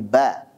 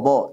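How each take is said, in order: First: The vowel is thin and light, like a. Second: The vowel is thick and dark, like o. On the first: The speaker calls it right. "selalu tipis" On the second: The speaker calls it wrong. "jangan bo"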